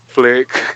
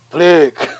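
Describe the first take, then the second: First: It is said weakly, with little energy. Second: It is said forcefully, at a higher pitch. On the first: The horses start moving really slowly. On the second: The horses start moving at normal pace.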